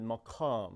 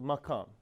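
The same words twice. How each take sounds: First: The word is said with a thick, deep pronunciation. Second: The word is said with a plain, light pronunciation.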